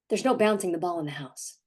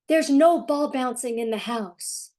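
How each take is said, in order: First: It is said in a firm, stern tone. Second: It is said in a warm, gentle tone.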